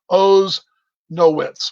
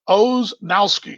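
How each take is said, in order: First: The name ends with a 'witz' sound. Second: The name ends with a 'ski' sound. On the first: The speaker calls it right. "not Nowski" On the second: The speaker calls it wrong. "I knew I'd messed it up"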